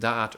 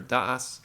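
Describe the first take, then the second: First: The word ends with a t sound. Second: The word ends with an s sound. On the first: "you can pronounce it da'at" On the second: "or das"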